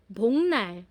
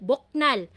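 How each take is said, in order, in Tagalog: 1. May tunog na ng bago ang n. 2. May tunog na k bago ang n. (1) "Pero yung bigkas po kanina is 봉날" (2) "naka-romanize po siya ng ganito"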